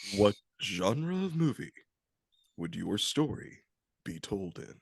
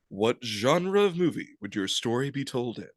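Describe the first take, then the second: First: It is in a slower, deeper movie-trailer voice. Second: It is in a movie-trailer voice at normal speed.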